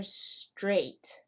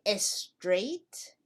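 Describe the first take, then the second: First: "straight" starting straight on the S; one syllable "straight", no vowel before the S; clean initial S. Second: "estraight" with an extra "eh" before the S; added E before S. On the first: Teacher offers learners the right choice, clean initial S. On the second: Teacher offers learners the wrong choice, added E before S. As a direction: say "estraight" as two syllables, es-TRAIGHT. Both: Shown as a demonstration. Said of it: "Do we say estraight".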